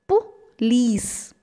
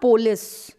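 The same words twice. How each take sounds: First: The stress falls on the second syllable. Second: The stress falls on the first syllable. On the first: The speaker calls it right. "It's police" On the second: The speaker calls it wrong. "It's not police"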